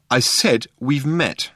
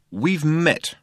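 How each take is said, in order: First: Slow, higher, deliberate "I said we've met"; insistent repeat. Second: Pitched-up, curt interjection; sharp interruption. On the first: Arthur repeats himself to baffled Ford, "I said we've met" slow and insistent. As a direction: spell out "I said we've met" slowly, pitched up. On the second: Arthur cuts into Ford's introduction, sharply. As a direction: cut in sharply without raising the volume. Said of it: "said Arthur sharply". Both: A narrator's reading.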